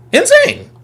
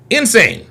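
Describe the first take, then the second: First: Insane. squealed much higher. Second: Said in the usual way. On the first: Real, not acted. Reacting to caller on stream, high squeal. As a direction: yelp Insane. way up high in disbelief. Disbelief at a clip.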